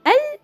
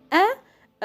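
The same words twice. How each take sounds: First: "Al" high, with the l clearly sounded; lam qamariya. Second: "a" high and short, no l at all; lam shamsiya. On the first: Teacher contrasting two lam rules, high clear l. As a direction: pitch "Al" up and sound the l. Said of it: "in lam qamariya". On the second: Teacher contrasting two lam rules, high "a" without l. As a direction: stop on the vowel of "a", lam silent. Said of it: "or lam shamsiya". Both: Shown as a demonstration.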